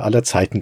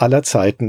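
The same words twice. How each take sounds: First: Said in the usual way. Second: Emphasis on "aller", falling after it; "aller Zeiten" with the weight on "aller"; stress on ALLER. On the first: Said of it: "mit Betonung auf aller Zeiten". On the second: Real, not acted. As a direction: lean on the word "aller". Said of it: "mit Betonung auf".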